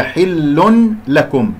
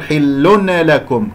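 First: حل لكم slowly as "hillun, lakum"; unmerged tanween. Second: حل لكم as "hillun-e-lakum"; wrong bounced noon. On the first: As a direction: sound the N separately in حل لكم. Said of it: "من النون إلى اللام". («حل لكم» بإظهار نون التنوين) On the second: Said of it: "كأنه صارت قلقلة". («حل لكم» بنون مقلقلة خطأً) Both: Shown as a demonstration.

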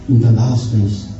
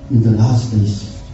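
The two takes are said the same way.

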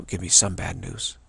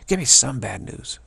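First: Said in the usual way. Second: Louder pleading. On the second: Retold or imitated. Begging the speaker for bad news, a louder mock plea.

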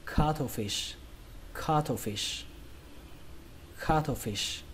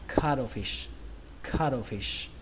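First: Cuttlefish said as KA-tho-fish; puffed "tho" in the middle of cuttlefish, stress on KA; aspirated T. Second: Cuttlefish said as KA-do-fish; soft D in the middle of cuttlefish, stress on KA; T becomes D. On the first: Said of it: "Âm thứ hai các bạn đọc là thổ". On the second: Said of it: "đọc cái âm thờ này thành âm đờ". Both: Shown as a demonstration.

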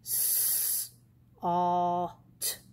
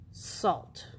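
First: S-, alt stretched apart into separate sounds; slow blend. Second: Salt said quickly as one smooth word; fast blend. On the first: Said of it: "So we'll the slow way". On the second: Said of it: "then the fast way". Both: Shown as a demonstration.

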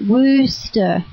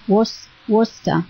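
First: Worcester said as "WUUS-ter", with the vowel of "wood"; corrected pronunciation. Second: Worcester said haltingly as "WOR-ster", with an "or" vowel; unsure pronunciation. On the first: Shown as a demonstration. Learning it from the listeners, Worcester pronounced carefully as "WOOS-ter". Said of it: "well, you say it". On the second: Real, not acted. Reading Worcester off the chat board, unsure pronunciation with "or". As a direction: try Worcester hesitantly, first syllable like "wars". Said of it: "I'm not sure how to say that".

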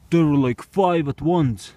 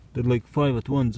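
First: Excited. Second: Said in the usual way. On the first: Real, not acted. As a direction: stretch five at once in wonder. Retelling the surprise.

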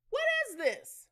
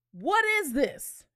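First: Incredulous. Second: "What is this?" slow and louder; slow firm repeat. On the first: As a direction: question jumps high on "What". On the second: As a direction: press each word of "What is this?" slowly. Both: Shown as a demonstration. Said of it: "repeats the question".

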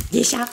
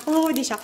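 First: Said in the usual way. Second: Higher, delighted "Oh, des chats"; light gasp of delight at the cats; delighted surprise. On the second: Real, not acted. Showing viewers the cats, delighted and surprised. Revealing the cat coaster designs.

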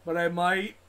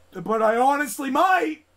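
First: Said in the usual way. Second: Higher and louder, on the edge of rage; exasperated yell on might; raging outburst. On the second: Real, not acted. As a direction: let the frustration burst out. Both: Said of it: "I don't wanna rage".

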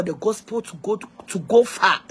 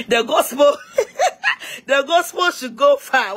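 First: Said in the usual way. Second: Higher, louder repeat broken by real laughter; tickled by your own phrase, pitched up and laughing; amused repeat. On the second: Real, not acted. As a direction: laugh through it, drawing out the final phrase.

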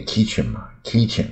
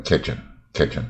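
First: "kitchen" with a long ee, like "kee-chen"; local learners' pronunciation. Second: "kitchen" with a short open i, like "ketch'n"; American pronunciation. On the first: Teacher mimicking how we say the kitchen word, long-ee "kitchen". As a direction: stretch the first vowel of "kitchen" to ee. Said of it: "厨房我们一定念". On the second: Teacher showing what learners can't reach, American lax-vowel "kitchen". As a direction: keep "kitchen" short and lax, second syllable reduced. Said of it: "没办法念到美国人". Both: Shown as a demonstration.

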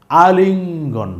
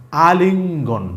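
First: আলিঙ্গন drawn out slowly, each sound held for learners; slow and clear teacher's model of আলিঙ্গন; slow model reading. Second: Said in the usual way. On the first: Shown as a demonstration. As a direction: stretch আলিঙ্গন out slowly so the class can copy it. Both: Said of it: "একটু বুঝে রাখেন".

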